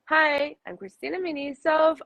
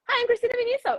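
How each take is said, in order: First: It is said at a calm, natural pitch. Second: It is said high-pitched and fast.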